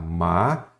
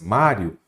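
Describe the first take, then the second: First: "Mário" broken apart, MÁ, a pause, then rio; split into syllables. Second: Said in the usual way. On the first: Shown as a demonstration. Teacher showing students the syllable split, "Mário" in separated syllables. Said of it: "Se você separar em sílabas". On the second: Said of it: "olha como vai ficar".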